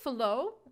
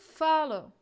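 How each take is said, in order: First: The stress is on the second syllable. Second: The stress is on the first syllable. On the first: The speaker calls it wrong. "We cannot say follow" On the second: The speaker calls it right. "The stress on the first"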